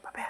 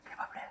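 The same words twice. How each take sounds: First: Said in the usual way. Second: Whisper. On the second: Real, not acted. Owner whispering to the pet hiding under the bed, whisper. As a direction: whisper the pet's name.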